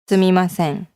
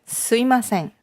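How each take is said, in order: First: The m sound is fully pronounced. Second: The m sound is dropped. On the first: The speaker calls it right. "a little bit more enunciated" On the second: The speaker calls it wrong. "a little bit of an abbreviation in the enunciation"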